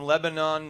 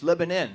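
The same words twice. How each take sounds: First: The last syllable is pronounced like 'on'. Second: The last syllable is pronounced like 'in'. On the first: "It's spelled with an O-N at the end. They don't like it pronounced like that" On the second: "you ought to put an I in there then"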